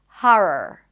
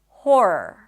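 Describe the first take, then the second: First: The first vowel is an open 'ah' sound. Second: The first vowel is a rounded 'aw' sound. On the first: "with an open ah sound" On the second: "the or as in for"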